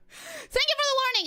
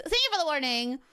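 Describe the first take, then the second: First: "Thank you for the warning" lifted high and bright; sing-song gratitude. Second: Said in the usual way. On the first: Real, not acted.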